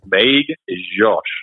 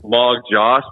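First: The middle consonant sounds very soft, like a j. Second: The middle consonant sounds hard, like an English g. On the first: The speaker calls it right. "with like a very soft J" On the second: The speaker calls it wrong. "My last name is Magdziarz"

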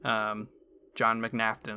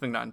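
First: The name's middle sounds like 'laughter'. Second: The name's middle does not sound like 'laughter'. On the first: "if you pronounce it like laughter" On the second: "I think it's McNaughton too"

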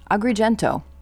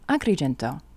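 First: The name is said with an American accent. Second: The name is said with an Italian accent. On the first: The speaker calls it wrong. "in American" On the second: The speaker calls it right. "let's use the proper pronunciation"

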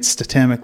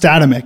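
First: The stress is on the second syllable. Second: The stress is not on the second syllable. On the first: The speaker calls it wrong. "the accent feels more natural on the second syllable" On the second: The speaker calls it right. "So it's pronounced Statemic"

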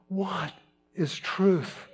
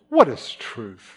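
First: It is asked with sincere, curious interest. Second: It is asked with a mocking, sardonic edge. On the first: He genuinely wants to know the answer. "one of a seeker, one of genuine curiosity" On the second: He dismisses the idea that truth can be known. "Or is it more sardonically?"

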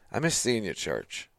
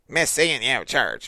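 First: It sounds warm and sincere. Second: It sounds pointed and accusing.

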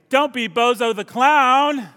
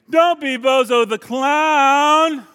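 First: It is said in a plain, neutral voice. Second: It is said in a whiny, annoying voice.

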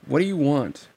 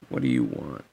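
First: It is said without an Axel impression. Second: It is said in an Axel impression.

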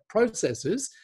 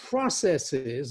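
First: The word is said in a British style. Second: The word is said in a non-British style.

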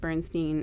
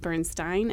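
First: The name is said in an anglicized pronunciation. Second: The name is said in its original pronunciation. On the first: The speaker calls it wrong. "we have shifted it to Bernstein in our English language, messing it up" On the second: The speaker calls it right. "I think you're right that it is Bernstein"

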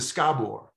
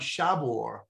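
First: The name begins with 'sk', like 'school'. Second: The name does not begin like 'school'. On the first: This is how the name's owner says it. The speaker calls it right. "as opposed to Schabort" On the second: This is the common American way of saying it. The speaker calls it wrong. "so many of the Americans have been calling Schabort"

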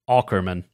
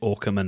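First: The name is said in an American accent. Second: The name is said in a British accent. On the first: "I know you would pronounce it like Aukerman" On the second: "as a Brit, I am duty bound to pronounce it Aukerman"

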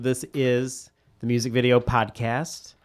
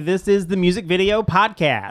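First: It is said flatly, with little energy. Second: It is said loudly, with lots of energy. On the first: The speaker calls it wrong. "You can't start it like that" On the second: The speaker calls it right. "High energy"

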